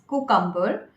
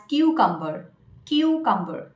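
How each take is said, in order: First: "cucumber" as koo-kum-ber, no y glide; common mispronunciation. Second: "cucumber" as KYOO-kum-ber; correct pronunciation. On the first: Retold or imitated. Coach quoting the mistake she hears, common mispronunciation. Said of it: "the pronunciation that I have heard mostly". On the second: Shown as a demonstration. Coach correcting the common mistake, correct pronunciation. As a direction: start "cucumber" with a y glide, kyoo. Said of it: "you should pronounce it as".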